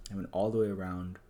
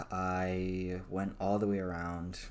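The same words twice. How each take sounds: First: Said in the usual way. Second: Slow emphatic. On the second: Shown as a demonstration.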